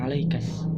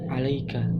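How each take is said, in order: First: The word ends with an added 's' sound. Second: The word ends plainly in a 'ka' sound. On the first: This is the dialect form of one tribe. "menjadi alaikas" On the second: This is the standard form. "alaika menjadi"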